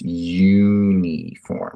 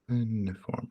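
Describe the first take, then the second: First: It begins with a clear Y sound. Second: It begins with a plain vowel, no Y sound. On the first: The speaker calls it right. "Has a hard Y sound. So you almost say it like this" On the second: The speaker calls it wrong. "Do you say uniform? No"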